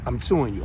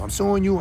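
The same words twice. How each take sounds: First: Low, soft, menacing warning; muttered low warning; low threat. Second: Said in the usual way. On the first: Real, not acted. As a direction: quietly promise to sue. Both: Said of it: "If you try to get off".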